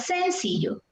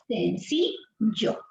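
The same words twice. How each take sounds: First: The stress is on the first syllable. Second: The stress is on the middle syllable. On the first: The speaker calls it wrong. "¿qué pasa si el acento fuera en la sílaba sen? Yo diría" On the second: The speaker calls it right. "la fuerza de voz está aquí"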